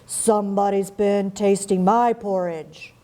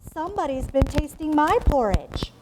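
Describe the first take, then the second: First: It is said in a big, deep voice. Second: It is said in a medium-pitched voice. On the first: "in his great huge voice" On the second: "in her middle-sized voice"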